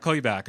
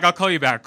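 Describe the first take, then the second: First: Said in the usual way. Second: Loud rushed brush-off; hurried and loud. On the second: Retold or imitated. Hurrying to end a phone call with friend, loud and rushed. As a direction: cut the call short, louder.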